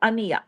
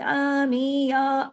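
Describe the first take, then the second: First: Each vowel is short and quick. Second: The vowels are stretched out in a melodic way. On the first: The speaker calls it right. "एक-एक हरकत है" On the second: The speaker calls it wrong. "लय बनाएँ आवाज़ में और लंबा कर दें"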